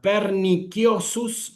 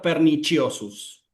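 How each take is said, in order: First: The c is sounded as a hard k. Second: The c is not sounded as a k. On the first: This is the classical pronunciation. "en la pronunciación clásica, suena como una K" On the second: This is the church pronunciation. "en la pronunciación eclesiástica"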